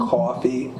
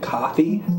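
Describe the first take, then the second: First: The first vowel is a rounded New Jersey caw sound. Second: The first vowel is a plain, unrounded standard sound. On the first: "So it'd be like caw, like caw" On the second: "instead of"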